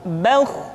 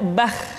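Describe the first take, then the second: First: The kh sound is heavy and thick. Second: The kh sound is light and thin. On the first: The speaker calls it right. "diucapkan dengan suara yang tebal, bauh" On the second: The speaker calls it wrong. "tidak bah"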